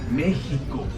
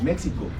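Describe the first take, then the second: First: The middle consonant is said with a J sound. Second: The middle consonant is said with an X sound. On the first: "we say Mexico" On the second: "We don't say it in Spanish"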